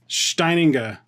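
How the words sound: The name is said with a German pronunciation. "in the traditional German"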